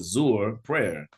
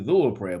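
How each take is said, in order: First: The word begins with a z sound. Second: The word begins with a th sound. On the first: The speaker calls it wrong. "the sister said Zuhr prayer" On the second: The speaker calls it right. "it's actually Dhuhr prayer"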